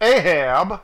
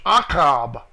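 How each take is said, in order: First: The middle consonant is a plain h sound. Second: The middle consonant is a throaty ch sound. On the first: The speaker calls it wrong. "They spelled it wrong and pronounced it wrong in the King James" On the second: The speaker calls it right. "It's Achab. A-C-H-A-B"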